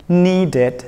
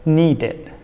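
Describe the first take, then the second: The two takes are said the same way.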